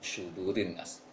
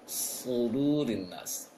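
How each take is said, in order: First: The first consonant is a light sh sound. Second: The first consonant is a thick, heavy s. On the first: The speaker calls it wrong. "jangan dibaca seperti shu" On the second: The speaker calls it right. "tebalkan saja"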